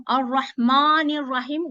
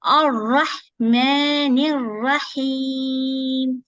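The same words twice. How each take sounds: First: Ar-Rahmanir Rahim said with the wrong light sound. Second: Ar-Rahmanir Rahim slowly recited, heavy ra; correct recitation. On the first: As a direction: demonstrate the mistake in Ar-Rahmanir Rahim. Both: Shown as a demonstration. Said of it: "No, you cannot pronounce this way".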